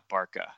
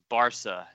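First: The middle consonant is a k sound. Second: The middle consonant is an s sound. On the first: The speaker calls it wrong. "it's not Barca" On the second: The speaker calls it right. "it's Barca"

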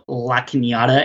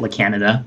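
First: The name is given a fancy-sounding pronunciation. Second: The name is given a plain, unglamorous pronunciation. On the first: "it sounds really fancy" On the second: "it doesn't sound sexy when you call it La Canada"

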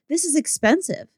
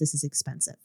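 First: It is said in her normal voice. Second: It is said in a put-on man's voice.

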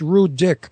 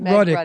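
First: The name sounds like two words, 'rude dick'. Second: The name is said as one smooth word. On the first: The speaker calls it wrong. "the other way it's Rude Dick" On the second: The speaker calls it right. "I pronounce it Rudick"

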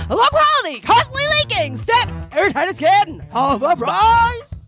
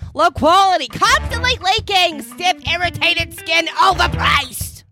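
First: It is said like a televangelist. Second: It is said in a Yankee voice.

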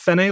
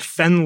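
First: The name is said as two syllables. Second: The name is said as one syllable. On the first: The speaker calls it wrong. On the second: The speaker calls it right.

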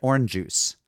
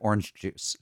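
First: The two g sounds merge into one. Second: The two g sounds are said separately. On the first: This is a friend's family habit. "She said orange juice ... One soft G" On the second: This is the usual way to say it. "instead of orange juice"

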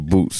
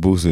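First: The name is said with a T sound. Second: The name is said without a T sound. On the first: This is how people locally say the name. The speaker calls it right. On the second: This is not how the name is said locally. The speaker calls it wrong.

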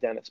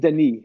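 First: The name is said in an English way. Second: The name is said in a French way. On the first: The speaker calls it wrong. "so we're just butchering his name, calling him Dennis" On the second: The speaker calls it right. "It's like it's Denis. It's like this guy's French"

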